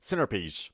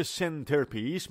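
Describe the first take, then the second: First: Centerpiece as "senner-piece", no t; American dropped T. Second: Centerpiece slowly with a clear t, "sen-ter-piece"; pronounced T. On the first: Teacher demonstrating American pronunciation, dropped T. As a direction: let the t vanish in centerpiece. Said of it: "در تلفظ آمریکایی". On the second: Teacher showing what Americans don't say, pronounced T. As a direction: articulate the t in centerpiece. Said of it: "تلفظ تی رو خیلی، خیلی کم". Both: Shown as a demonstration.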